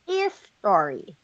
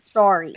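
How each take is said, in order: First: An extra vowel sound comes before the s. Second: The word starts directly with the s sound. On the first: The speaker calls it wrong. "we don't say is story" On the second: The speaker calls it right. "we just say"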